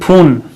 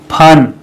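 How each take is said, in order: First: The vowel is a long 'oo' sound. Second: The vowel is a short 'uh' sound. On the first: The speaker calls it wrong. "गलत हो गया ना" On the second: The speaker calls it right. "फन होगा"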